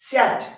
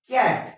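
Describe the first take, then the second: First: The word begins with an s sound. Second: The word begins with a k sound. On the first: The speaker calls it wrong. "इथं जर एस sound काढला तर कसं होईल?" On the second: The speaker calls it right. "इथं क sound होणार आहे"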